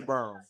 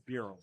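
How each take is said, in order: First: The surname is said in a rural country way. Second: The surname is said in its formal family way. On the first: "if you're country, you say Burham" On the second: "the correct correct pronunciation is Burham"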